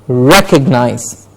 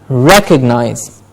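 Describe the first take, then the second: Both takes have the same delivery.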